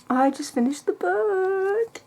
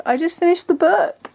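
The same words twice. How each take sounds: First: Much higher and slow, savoring each word; excited, drawn-out. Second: Higher and louder, bursting with excitement; excited. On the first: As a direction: stretch it out, giddy and amazed. Repeats finishing news, drawn out. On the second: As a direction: announce it thrilled, just having finished. Excited announcement after finishing book. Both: Real, not acted.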